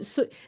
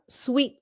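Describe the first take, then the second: First: The word is said like 'soo' without a 'w'. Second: The word is said like 'sweet' with a 'w'. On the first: The speaker calls it wrong. "nhiều người muốn nói là su su su. They don't know how to pronounce it" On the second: The speaker calls it right. "It's pronounced sweet"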